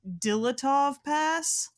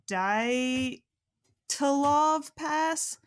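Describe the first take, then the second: First: The name starts with 'Dila', three syllables. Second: The name starts with 'Dya', two syllables. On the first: Someone else says it this way. The speaker calls it wrong. "They call it the Dilatov Pass" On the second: This is the actual name. The speaker calls it right. "it's actually the Dyatlov Pass"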